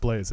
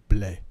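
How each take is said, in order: First: The name ends with an audible s sound. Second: The name ends on the vowel, no s. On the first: The speaker calls it wrong. "it's not pronounced Blaze" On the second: The speaker calls it right. "It's pronounced Blay. silent S"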